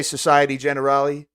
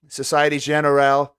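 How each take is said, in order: First: Generale said the English way, like "generally"; "Generale" as plain English "jen-er-al-ee"; anglicized pronunciation. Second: "Generale" lightly Frenchified, ending on "al"; French-style pronunciation. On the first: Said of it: "can I just say Society Generale". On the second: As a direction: say "Generale" as "zhen-er-AL", no final vowel. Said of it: "use a fake French accent". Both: Shown as a demonstration.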